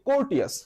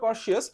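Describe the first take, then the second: First: The middle consonant is a t sound. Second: The middle consonant is an sh sound. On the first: This is a memory aid linking the word to court. "But আমি বলি কোর্টিয়াস" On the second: This is the real pronunciation of the word. "আসলে উচ্চারণটা কর্শিয়াস"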